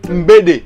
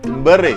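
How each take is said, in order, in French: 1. La consonne du milieu est un son D. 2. La consonne du milieu est un son R. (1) "si on dit Mbede" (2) "chez eux ça devient Mbere"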